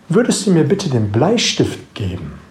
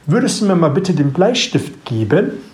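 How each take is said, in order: First: The pitch falls at the end of the sentence. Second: The pitch rises at the end of the sentence. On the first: It is heard as a command. "mit dem Satzende nach unten gehe von der Stimme" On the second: It is heard as a real question. "Jetzt bin ich mit der Stimme am Ende nach oben gegangen"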